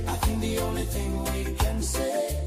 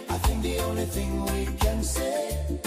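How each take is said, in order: Both takes have the same delivery.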